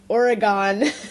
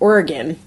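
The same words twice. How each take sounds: First: It is said the way outsiders say it. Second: It is said the way locals say it. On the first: The speaker calls it wrong. "because we're not from the West Coast. We call it Oregon" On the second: The speaker calls it right. "if you want to say it correctly"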